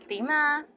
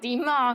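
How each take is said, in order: First: It is said in a friendly tone. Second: It is said in an angry tone. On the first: How are you? The speaker calls it right. "So say it with a nice voice" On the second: What do you want? The speaker calls it wrong. "if you say it angrily"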